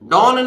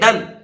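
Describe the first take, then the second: First: The syllable has a full 'o' vowel. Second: The syllable has a short 'uh' vowel. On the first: The speaker calls it wrong. "डॉन नहीं है" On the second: The speaker calls it right. "है डन"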